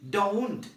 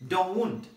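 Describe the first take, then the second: Both takes have the same delivery.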